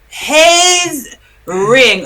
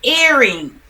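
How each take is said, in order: First: The word starts with an added h sound. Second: The word starts with a plain vowel sound. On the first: The speaker calls it wrong. "They call it haze ring" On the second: The speaker calls it right. "the word is what they call it"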